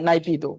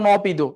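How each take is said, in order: First: The first syllable is a 'nai' diphthong sound. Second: The first syllable is a short 'na' sound. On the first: This is the ordinary pronunciation. "আর এমনি উচ্চারণ করলে কি হয় নাইপিদো" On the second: This is how it is said in English. "ইংরেজিতে কি বলে এনপিদো বা নপিদো"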